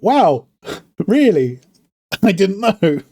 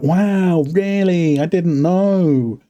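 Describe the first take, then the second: First: It is said with sincere, genuine surprise. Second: It is said with a sarcastic, mocking tone.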